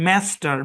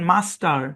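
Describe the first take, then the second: First: The first vowel is like 'a' in cat. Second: The first vowel is a long open 'ah'. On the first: "American ইংলিশে এই শব্দের উচ্চারণ ম্যাস্টার" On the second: "British ইংলিশে এই শব্দের উচ্চারণ মাস্টার"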